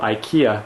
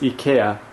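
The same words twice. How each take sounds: First: The name is said in the American pronunciation. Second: The name is said in a non-American pronunciation.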